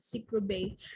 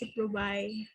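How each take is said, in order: First: The last syllable sounds like 'bay'. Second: The last syllable sounds like 'bye'. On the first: This is how Filipinos read it. "Ciprobay is muna siya ang basa sa mga Pilipino" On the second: This is the original British-style pronunciation. "originally, that is pronounced as Ciprobay"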